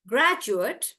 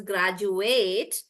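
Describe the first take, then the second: First: "graduate" stressed on GRAD, short ending; noun pronunciation. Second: "graduate" with stretched "ATE"; "graduate" as "grad-ju-AYT"; verb pronunciation. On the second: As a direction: draw out the end of "graduate". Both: Shown as a demonstration. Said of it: "noun versus verb".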